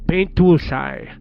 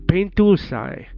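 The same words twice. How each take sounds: The two takes are said the same way.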